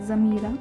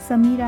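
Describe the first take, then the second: First: The name begins with a z sound. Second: The name begins with an s sound. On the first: This is how the name is said in German. The speaker calls it right. "एस जो है वो ज में कन्वर्ट हो जाएगा" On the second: This is how the name is said in India. The speaker calls it wrong. "समीरा नहीं होगा, समीरा इंडिया में होगा"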